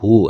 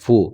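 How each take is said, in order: First: The word begins with an h sound. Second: The word begins with an f sound. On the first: The speaker calls it right. "বলবো কি হু" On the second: The speaker calls it wrong. "এই হুকে অনেক মানুষ ফু বলে ফেলে"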